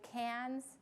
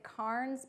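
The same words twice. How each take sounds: First: Said with the local Australian pronunciation. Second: Said with the speaker's own usual pronunciation. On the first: "but they say Cairns" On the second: "I would pronounce it Cairns"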